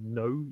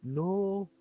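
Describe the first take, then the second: First: It is said in a standard southern English accent. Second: It is said in a northern English accent. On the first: "instead of saying the word no" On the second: "If you're northern, you speak funny"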